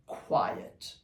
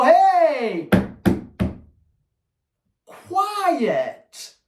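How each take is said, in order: First: Soft, breathy "quiet." with no emotion; hushed flat correction; calm quiet command. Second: Loud sharp command after smacking the crate; shouted correction. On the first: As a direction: say it low and unemotional, no anger. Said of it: "Nothing emotional". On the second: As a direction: startle the dog with a sharp yell. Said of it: "I go". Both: Shown as a demonstration.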